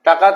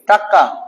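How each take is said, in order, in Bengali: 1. মধ্যের ব্যঞ্জনটি হ্রস্ব ও সাধারণ। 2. মধ্যের ব্যঞ্জনটি জোর দিয়ে দ্বিত্ব করা হয়েছে।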